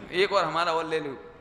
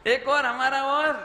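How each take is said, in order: First: A little louder, joining in on the beating; mock egging on. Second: High, loud, rising repeat; loud mock eagerness. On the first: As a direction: playfully urge one more blow. Acting someone joining the beating. (जोश में उकसाने का अभिनय) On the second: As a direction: throw it out high and loud, egging them on. Repeats the egging on, then asks why. (ऊँची आवाज़ में जोशीली नकल)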